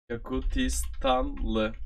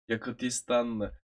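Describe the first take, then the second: First: Each syllable drawn out slowly, Yakutistanlı; slow demo. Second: Said in the usual way. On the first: Shown as a demonstration. Teacher models the word for the learner, slow and careful. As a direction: spell out Yakutistanlı slowly so the learner catches every sound. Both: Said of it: "Yak-, oy".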